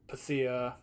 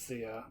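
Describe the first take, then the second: First: The name begins with a pronounced P sound. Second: The name begins without any P sound. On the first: "Hidden Xperia pronounces it Pythia" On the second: "or maybe just Thea, because like the P looks like it would be silent"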